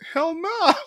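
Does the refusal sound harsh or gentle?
harsh. The refusal sounds harsh and mean.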